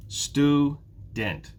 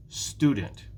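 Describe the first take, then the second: First: Student split into two beats, Stu, dent; syllable by syllable. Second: Student as one word, strong STU; stress on first syllable. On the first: Teacher counting syllables for learners, "Student" in two separate beats. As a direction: break "Student" apart with a gap between syllables. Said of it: "There are two". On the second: Teacher showing which syllable is stressed, "Student" stressed on "Stu". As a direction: say "Student" joined up, leaning on "Stu". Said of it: "It's the first syllable". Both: Shown as a demonstration.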